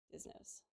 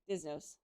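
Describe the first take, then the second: First: Breathy whispered aside. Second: Said in the usual way. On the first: Shown as a demonstration. Streamer echoing the chatter, in a whisper. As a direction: whisper it like a secret.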